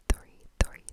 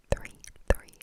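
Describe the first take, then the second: No difference in how they are said.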